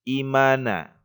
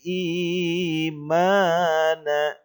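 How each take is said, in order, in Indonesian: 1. Vokal pertama dibaca pendek. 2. Vokal pertama dibaca panjang. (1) "bukan imana" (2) "Jadi panjang, ... tetapi imana"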